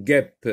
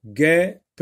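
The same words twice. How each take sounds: First: Said in the usual way. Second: "guêpe" broken into guê and pe; higher, louder guê, then a separate pe in "guêpe"; split into two syllables. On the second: Shown as a demonstration. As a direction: say "guêpe" in two beats, sounding the final pe. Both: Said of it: "deux syllabes".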